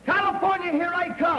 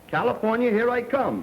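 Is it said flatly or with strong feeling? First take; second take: strong feeling; flatly. First: It is said with strong feeling. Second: It is said flatly, without feeling.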